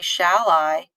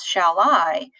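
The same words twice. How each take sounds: First: The stress falls on the word shall. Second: The stress falls on the word I. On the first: This is the everyday way of saying it. "whereas we would normally say" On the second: This follows the poem's meter. "because I is more important than shall"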